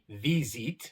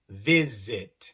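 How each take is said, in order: First: The i vowel is a long, tense ee. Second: The i vowel is a short, lax i. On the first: The speaker calls it wrong. "No es ... ni visit" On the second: The speaker calls it right. "sino ... visit"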